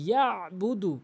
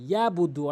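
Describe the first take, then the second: First: The throat consonant ain is clearly pronounced. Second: The throat consonant ain is left out. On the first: The speaker calls it right. "আইনের উচ্চারণ করতে হবে" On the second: The speaker calls it wrong. "অধিকাংশ লোক ভুল যেটি করে ... আইনের উচ্চারণ এখানে করেই না"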